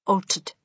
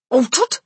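First: Said in the usual way. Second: Loud, higher incredulous question; shouted disbelief. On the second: A narrator's reading. Mister Jenkins queries grandmother's news, shouting in disbelief. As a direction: throw the word back as a shout. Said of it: "shouted Mister Jenkins".

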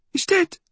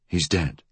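First: Put-on very high, emphatic old-woman voice; high-pitched, agitated statement; insistent old woman. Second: Man echoing in his natural pitch; understated male voice, doubting. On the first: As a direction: declare it in a high crone voice. Old woman insists boy died. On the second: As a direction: repeat it quietly, without agitation. Fool echoes her in disbelief. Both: A narrator's reading.

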